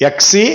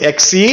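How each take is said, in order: No difference in how they are said.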